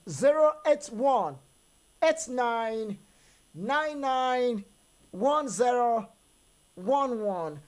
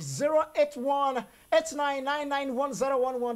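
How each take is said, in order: First: The number is read slowly. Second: The number is read at normal speed.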